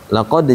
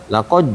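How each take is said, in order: Both takes have the same delivery.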